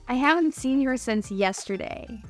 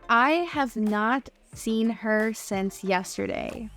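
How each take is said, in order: First: Have and not merge into one contracted word. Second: Have and not are said as separate words. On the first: "it changes to that contraction in English when we're speaking" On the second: "Instead of saying not"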